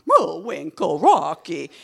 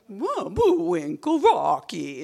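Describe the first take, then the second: First: Louder, blunt cartoon Russian man accent. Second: Higher and slow, cartoon Russian woman accent. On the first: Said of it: "there's a woman one and a man one". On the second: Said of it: "And she would talk like that".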